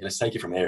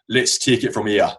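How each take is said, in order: First: It is said in an attempted Irish accent. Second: It is said in an attempted Geordie accent.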